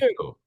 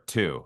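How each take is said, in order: First: The pitch glides up on the word. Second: The pitch glides down on the word. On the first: The speaker calls it wrong. "you're going up. You're doing an up glide" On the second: The speaker calls it right. "I'm looking for two. ... on a down glide"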